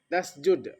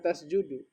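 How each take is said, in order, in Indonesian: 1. Kata ini berakhir dengan konsonan d. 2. Kata ini berakhir dengan vokal u tambahan. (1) "Bariskan mati" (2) "Jangan baca tasjudu"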